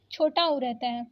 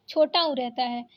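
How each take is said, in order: Both takes have the same delivery.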